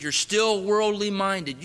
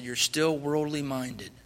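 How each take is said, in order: First: Slow, loud repeat of the charge; insisting louder. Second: Said in the usual way. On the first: Retold or imitated. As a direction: press the point home, slowly.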